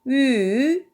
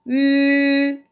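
First: The pitch dips low and then rises. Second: The pitch stays high and level. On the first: "삼성" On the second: "일성"

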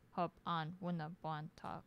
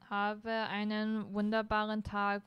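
First: It is said in the regional accent. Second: It is said in formal standard German.

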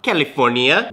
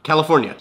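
First: The word is said in an exaggerated, dramatic way. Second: The word is said in a plain, ordinary way. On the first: The speaker calls it wrong. "Why did I say it like that?" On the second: The speaker calls it right. "Just say it normal"

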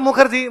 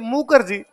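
First: The middle consonant is an aspirated kh. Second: The middle consonant is a plain k. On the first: The speaker calls it wrong. "Note" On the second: The speaker calls it right. "के एच नहीं लिखते, के ही लिखते हैं"

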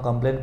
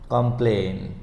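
First: The last vowel is short and clipped. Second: The last vowel is long and drawn out. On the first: The speaker calls it wrong. "अगर इसको हम कंप्लेन पढ़ें तो गलत हो जाएगा" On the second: The speaker calls it right. "हमको ए को खींचना है"

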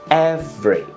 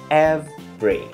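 First: The word is said with two syllables. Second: The word is said with two syllables.

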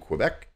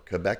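First: Quebec is said the usual American way. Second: Quebec is said the way Canadians say it.

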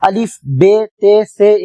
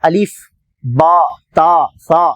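First: The letter names end in an 'e' vowel. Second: The letter names end in an 'a' vowel. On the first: This is the Urdu way of naming the letters. The speaker calls it wrong. "அது Urdu" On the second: This is the Arabic way of naming the letters. The speaker calls it right. "இது அரபி வழிமுறை"

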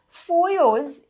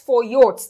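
First: The word ends without a t sound. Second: The word ends with a t sound. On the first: The speaker calls it right. "the last letter is not pronounced" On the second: The speaker calls it wrong. "it is not pronounced as Foyots"

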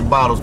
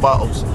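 First: The word is said in an American accent. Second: The word is said in a British accent. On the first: This is not how people here say it. The speaker calls it wrong. "they don't say bottles" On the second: This is how people here say it. The speaker calls it right. "They say bottles"

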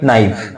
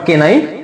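First: The word starts directly with an n sound. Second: A k sound is heard before the n. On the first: The speaker calls it right. "এটা হবে কি নাইফ" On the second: The speaker calls it wrong. "না না not কে নাইফ"

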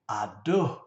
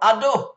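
First: It is said as a sigh of pleasure. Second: It is said as a cry of pain. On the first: Something feels or tastes very good. "Something tastes very good or is feeling very good" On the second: Something hurts. "You kick your toe"

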